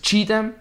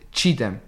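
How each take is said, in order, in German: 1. Die Mitte des Namens wird langgezogen gesprochen. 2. Die Mitte des Namens wird schnell gesprochen. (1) "da sollst du halt dein Wort langsam sagen ... du sagst es Chidem" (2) "nicht Chidem"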